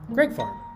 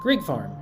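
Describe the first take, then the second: First: The first word is said like 'Greg'. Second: The first word is not said like 'Greg'. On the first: The speaker calls it right. "is pronounced Greg Farm" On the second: The speaker calls it wrong. "We've been calling it Greig Farm"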